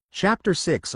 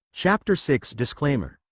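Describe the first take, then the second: First: Chapter six announced higher in pitch; chapter heading, higher. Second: Said in the usual way. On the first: Shown as a demonstration.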